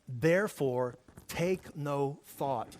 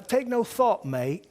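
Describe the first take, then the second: First: Said in the usual way. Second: High, loud mock-English cheer, dropping on mate; mock English accent. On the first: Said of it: "listen to the King James Version". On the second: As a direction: encourage a pal in a put-on English accent. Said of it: "this is how the English used to encourage".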